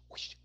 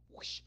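No difference in how they are said.

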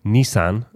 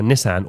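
First: Nissan with a long first vowel, NEE-san; alternative pronunciation. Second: Nissan with a short first vowel, NISS-an; short-vowel pronunciation. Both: Shown as a demonstration. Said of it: "as some people like to call it".

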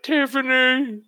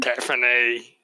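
First: Tiffany drawn out slowly, pitched high, broad Australian; stronger Australian accent. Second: A light Australian lilt on Tiffany; Australian accent. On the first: Correcting the first try at Barbara's voice, a broad Australian accent. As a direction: stretch Tiffany out high and slow, full Australian. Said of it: "It sounds even more Australian". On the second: Asked to replicate how Barbara said the name, a mild Australian accent. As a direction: say Tiffany the way an Australian neighbour would. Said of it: "sounds like her husband, who's Australian".

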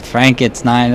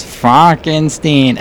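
First: Said in the usual way. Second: "Frankenstein" drawn out as FRONK-en-steen; corrected name pronunciation. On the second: Retold or imitated. Fan quoting how the movie says the names, "Frankenstein" said as Fronkensteen. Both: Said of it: "just the pronunciation of all the names".

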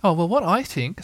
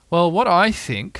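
First: Higher-pitched little storybook pig; Piglet. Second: Slow, higher, louder storybook bear; Pooh. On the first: Little pig offers his own idea, higher character voice. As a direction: voice a small pig piping up. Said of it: "said Piglet". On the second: Bear gives Piglet his idea, slow raised character voice. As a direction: voice a pondering bear, raised and unhurried. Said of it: "said Pooh". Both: A narrator's reading.

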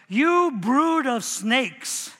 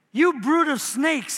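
First: Each word drawn out slowly, You brood of snakes; slow exclaimed rebuke. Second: Pitched up on You brood of snakes; higher exclaimed rebuke. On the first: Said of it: "he exclaimed". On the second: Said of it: "he excla-, exclaimed". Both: Acted.

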